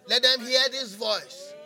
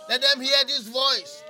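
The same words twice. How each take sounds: The two takes are said the same way.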